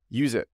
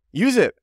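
First: Said in the usual way. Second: "Use it" jumps way up in pitch; emphatic urging. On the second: Real, not acted. Host urges people with strong accents, emphatic urging. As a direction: push "Use it" high as a firm urging. Urges listeners, then repeats.

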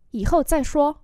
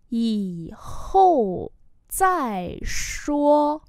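First: Said in the usual way. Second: Very slow, gaps between syllables; word-by-word pronunciation model; slow demonstration. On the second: Shown as a demonstration. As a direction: draw out each word for learners. Teacher repeats slowly for learners.

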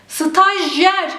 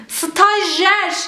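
First: Stajyer with the y sounded; doğru telaffuz. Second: Stajyer said stajer, the y dropped; yanlış telaffuz. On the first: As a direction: say the y clearly in Stajyer. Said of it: "Arada Y harfi var". (doğru söyleyiş: Stajyer) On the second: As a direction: swallow the y in Stajyer. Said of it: "Stajyer şeklinde yazmayacağım". (yanlış söyleyiş: stajer) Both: Shown as a demonstration.

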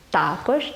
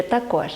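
First: Також stressed on "та", TA-kozh; first-syllable stress. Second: Також stressed on "кож", ta-KOZH; last-syllable stress. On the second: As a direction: put the weight on the final syllable of також. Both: Shown as a demonstration. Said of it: "як правильно говорити".

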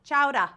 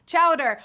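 First: "Chowder" with the r dropped, like "chowdah"; New England accent. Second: Said in the usual way. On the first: Retold or imitated. Host shows how New Englanders say it: New England accent. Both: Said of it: "some people in New England say chowder".

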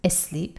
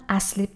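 First: Asleep said with a light schwa start, a-SLEEP; asleep, soft short a, stress on sleep; correct asleep. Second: Asleep said as esleep, with a clear e at the start; the typical Iranian mistake, asleep as esleep; wrong Iranian asleep. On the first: Teacher gives students the correct version, light schwa, stress on sleep. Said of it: "تلفظش هست asleep". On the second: Teacher demonstrates the wrong Iranian way to say it, e at the start. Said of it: "اولاً asleep نیست". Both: Shown as a demonstration.

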